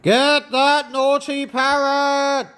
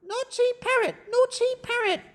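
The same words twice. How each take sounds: First: Acted yell at a runaway parrot; story character yelling an order. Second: High, light parrot echo; high-pitched parrot singsong; mimicking parrot. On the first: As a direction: call out as if starting a chase. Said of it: "Stop yelling". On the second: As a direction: mimic it back in a squawky parrot voice. Parrot mimics the yelled words.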